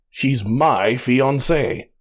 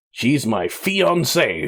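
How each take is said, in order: First: "my" stressed, very slow, falling. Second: "fiancée" leaned on, slow and falling; slow, land firmly on "fiancée"; stress on fiancée. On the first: Reminding the artist whose fiancée she is, stress on "my". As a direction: drag it out and hit "my" hard. Repeating claim with emphasis. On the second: Insisting to the artist that she's his fiancée, stress on "fiancée". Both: Acted.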